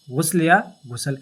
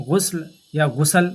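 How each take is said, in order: First: غسل said as ghusl, then as ghusal; two ways to say ghusl again. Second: غسل said first short as ghusl, then as ghusal with an added vowel; two ways to say ghusl. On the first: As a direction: show both sounds of غسل. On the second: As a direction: contrast غسل and غسل clearly. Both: Shown as a demonstration.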